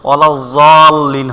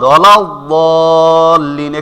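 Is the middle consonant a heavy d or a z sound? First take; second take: z sound; heavy d. First: The middle consonant sounds like a z. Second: The middle consonant is a heavy d sound. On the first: The speaker calls it wrong. "অনেকে মনে করে ওয়ালাযলীন হবে, হ্যাঁ ওভাবে না" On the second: The speaker calls it right. "বদ হবে বদ"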